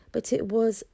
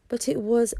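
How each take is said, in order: Both takes have the same delivery.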